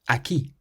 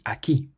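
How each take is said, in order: First: The stress is on the last syllable. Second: The stress is on the last syllable.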